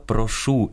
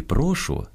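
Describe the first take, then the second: First: «прошу» stressed on the final syllable, прошУ; stress on last syllable. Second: «прошу» stressed on the first syllable, прОшу. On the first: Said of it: "Наголос". («прошу» — наголос на «шу») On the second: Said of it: "кажемо". («прошу» — наголос на «про») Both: Shown as a demonstration.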